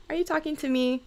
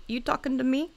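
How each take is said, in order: First: Said in the usual way. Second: Mock Taxi Driver menace; lightly voiced tough guy, no real edge; half-joking gangster challenge; tough-guy movie quote. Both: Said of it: "Oh, that was very, like".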